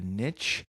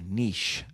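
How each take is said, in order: First: The word is said the plain, everyday way. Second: The word is said the fancy, refined way.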